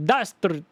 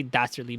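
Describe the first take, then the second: First: High, hammed-up Transylvanian accent. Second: Said in the usual way. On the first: Shown as a demonstration. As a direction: relish it in a cartoony Transylvanian accent. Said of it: "dastardly better in that accent". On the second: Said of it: "I can say dastardly better".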